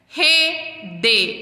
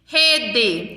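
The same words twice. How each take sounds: First: REDE in two parts, re, de, with a gap; split into syllables. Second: Said in the usual way. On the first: Shown as a demonstration. Teacher counting syllables for children, split into syllables. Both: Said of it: "eu tenho duas sílabas".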